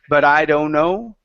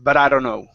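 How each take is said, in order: First: The phrase is said slowly and carefully. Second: The phrase is said quickly and run together. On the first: The speaker calls it wrong. "instead of saying" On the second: The speaker calls it right. "it's very fast"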